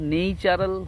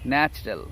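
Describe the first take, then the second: First: The first vowel is a long 'ay' sound. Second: The first vowel is a short 'a' sound. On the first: The speaker calls it wrong. "এটা কিন্তু নেইচারাল হবে না" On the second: The speaker calls it right. "তখন হবে ন্যাচারাল"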